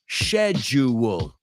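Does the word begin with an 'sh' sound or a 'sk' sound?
sh sound. The word begins with an 'sh' sound. "British English, schedule. So there's no K"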